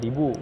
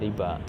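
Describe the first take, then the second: First: The word ends with a 'u' vowel. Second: The word ends with an 'a' vowel. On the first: It is read following the written waw. The speaker calls it wrong. "kalau seandainya kita membaca membaca dengan ada waw, berarti kan kita baca dengan ribu" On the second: It is read the way the Quraysh pronounced it. The speaker calls it right. "tapi bacaannya tetap dibaca dengan uh, riba"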